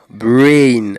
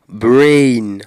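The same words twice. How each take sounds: First: The vowel is a long, gliding diphthong. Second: The vowel is a long, gliding diphthong.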